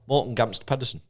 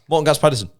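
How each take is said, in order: First: It is said at a normal pace. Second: It is said quickly, in rapid repetition.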